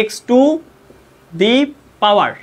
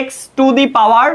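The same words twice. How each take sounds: First: "x to the power" said word by word with pauses; slow spaced pronunciation. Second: "x to the power" drawn out very slowly and clearly; slow model pronunciation. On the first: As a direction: spell out "x to the power" slowly, each word apart. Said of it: "কারণ এই উচ্চারণটা অনেকে পারো না". ("x to the power" ধীরে ধীরে শব্দ আলাদা করে উচ্চারণ) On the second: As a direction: dictate "x to the power" slowly for students to copy. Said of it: "এটার উচ্চারণটা যারা পারো না". ("x to the power" খুব ধীরে স্পষ্ট করে উচ্চারণ) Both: Shown as a demonstration.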